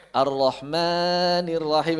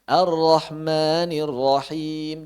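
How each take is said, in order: First: "Ar-Rahmanir Rahim" chanted slowly with the mad stretched; exaggerated wrong tajwid; overlong recitation. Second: "Ar-Rahmanir Rahim" chanted slowly, two counts on each mad; careful tajwid chant; measured recitation. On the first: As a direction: drag the long vowels out too far. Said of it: "Jangan dilebihkan". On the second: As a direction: recite with the long vowels held two beats. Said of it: "Dua harokat, dua harokat". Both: Shown as a demonstration.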